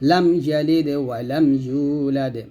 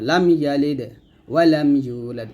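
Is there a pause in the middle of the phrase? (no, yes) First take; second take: no; yes. First: It is read through without a pause. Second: There is a pause after yalid. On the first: The speaker calls it right. "একসাথে পড়বো" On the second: The speaker calls it wrong. "এরকম না"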